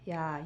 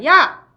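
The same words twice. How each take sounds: First: It is said in a soft voice. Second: It is said in a loud voice. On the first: "작은 목소리부터 시작해서" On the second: "큰 목소리까지"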